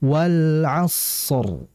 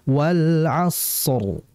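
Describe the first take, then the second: The two takes are said the same way.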